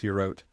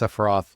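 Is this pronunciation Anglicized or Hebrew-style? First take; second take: Hebrew-style; Anglicized. First: It is said with a Hebrew-style pronunciation. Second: It is said with an Anglicized occult-tradition pronunciation. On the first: "a more proper Hebrew pronunciation" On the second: "the one that the Golden Dawn, for example, popularized"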